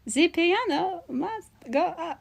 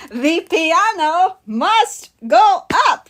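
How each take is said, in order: First: High, slow, soft singsong proclamation; softer mock cartoon quote. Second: High, slow, word-by-word proclamation; mock cartoon quote. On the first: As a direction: echo the cartoon line quietly, stretching each word. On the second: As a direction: declare it with hammed-up pauses between words. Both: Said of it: "VeggieTales reference automatically wins".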